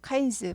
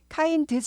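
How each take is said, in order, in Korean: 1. d 소리가 삼켜져서 거의 안 들려요. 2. d 소리가 완전히 또렷하게 발음돼요. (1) "발음이 드가 잘 안 들려요" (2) "kinds 하지 않고"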